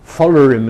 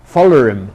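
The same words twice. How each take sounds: First: An r sound follows the weak final vowel. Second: An r sound follows the weak final vowel.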